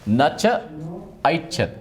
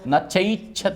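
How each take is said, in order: First: Three separate words are said apart. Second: The words are merged into one joined form. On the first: "इतने तीन पद है इसमें" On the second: "इसमें मिलाकर न चैच्छत् हो जाएगा"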